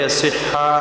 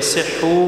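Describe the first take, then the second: First: The word ends with an a vowel. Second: The word ends with an u vowel. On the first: It uses the lightest vowel. "dibaca fathah karena barisnya ringan" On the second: It follows the original vowel. "dibaca duma ikut kepada baris asal"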